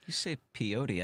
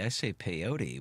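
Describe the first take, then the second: First: Peyote as pee-OH-tee; pron. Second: Peyote as pay-OH-tee; pron. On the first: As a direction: say peyote with an ee sound first. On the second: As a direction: say peyote with an ay sound first. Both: Shown as a demonstration.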